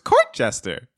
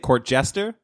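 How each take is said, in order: First: The stress falls on the first word. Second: The stress falls on the second word. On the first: "Because I guess I put the emphasis on court" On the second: "what are you supposed to say?"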